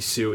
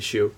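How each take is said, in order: First: The name begins with a plain 's' sound. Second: The name begins with an 'sh' sound. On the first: The speaker calls it wrong. "It's not Stephanie Sue" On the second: The speaker calls it right. "it's like Stephanie Shue"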